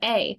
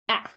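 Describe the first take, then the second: First: The vowel is the long 'ay' letter name. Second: The vowel is a short open 'ah' sound. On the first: "sometimes the letter A says its own name" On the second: "sometimes this letter says ah"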